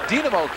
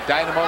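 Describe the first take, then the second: First: The name is said the Russian way. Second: The name is said the American English way. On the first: This is how it was called in Soviet times. "we called it at one time in the Soviet Union" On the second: This is how English speakers have long said it. "for us Americans, right, for years"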